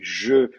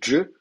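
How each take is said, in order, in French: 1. La consonne est un son zh doux. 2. La consonne est un son dj. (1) "va se prononcer je en arabe en Syrie" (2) "va se prononcer dje au Maghreb"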